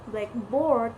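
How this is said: The stress falls on board. "stress second, adjective plus noun phrase"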